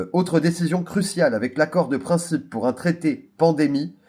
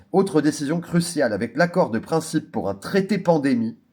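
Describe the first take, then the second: The two takes are said the same way.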